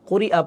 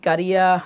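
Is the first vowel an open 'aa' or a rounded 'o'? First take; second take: rounded o; open aa. First: The first vowel is a rounded 'o' sound. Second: The first vowel is an open long 'aa'. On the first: The speaker calls it right. "এটা করিয়া হবে" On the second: The speaker calls it wrong. "কারি হবে না"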